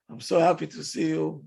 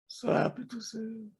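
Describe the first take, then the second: First: It sounds sincerely happy and warm. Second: It sounds sarcastic and cold.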